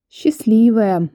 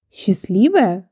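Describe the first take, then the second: First: "Счастливая" slow and drawn out, higher, envious; envious sigh. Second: "Счастливая?" thrown back as an offended question; indignant question. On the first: Visitor envies neighbour of famous Ёлкин, envious sigh. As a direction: sigh it out with longing envy. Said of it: "завистливо вздохнула я". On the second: Woman rejects being called lucky neighbour, indignant. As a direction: echo the word in mild indignation. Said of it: "возмутилась женщина". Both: A narrator's reading.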